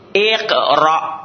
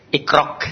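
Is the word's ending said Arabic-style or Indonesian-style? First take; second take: Arabic; Indonesian. First: The ending is said with Quranic Arabic sounds. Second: The ending sounds like a local Indonesian k. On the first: The speaker calls it right. "Bukan ikrok" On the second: The speaker calls it wrong. "ada yang baca ikrok katanya"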